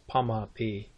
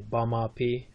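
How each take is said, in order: First: The word begins with a voiceless P sound. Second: The word begins with a voiced B sound. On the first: This is the southern dialect form. "in Kansas" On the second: This is the northern dialect form. "up north they would say"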